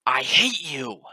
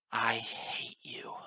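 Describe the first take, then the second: First: Very loud, higher scream of hatred; furious scream. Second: Very slow, drawn-out hatred through gnashed teeth; seething through tears. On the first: Narrator screaming into the chaos at the goddess, furious. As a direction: scream it out with everything. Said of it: "I screamed into the chaos". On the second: Narrator staring up at the goddess as tears run, seething. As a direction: seethe it out, held back. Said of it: "gnashing my teeth as tears ran down". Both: A narrator's reading.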